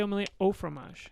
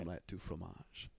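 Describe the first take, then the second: First: "omelette au fromage" said with "au", not "du"; correct French. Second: Wrong phrase, "du" said softly in mock French. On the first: Shown as a demonstration. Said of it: "you don't say it, you say". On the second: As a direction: say "Omelette du fromage" as "du fromage" in a quiet mock-French voice. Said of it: "You don't say du fromage".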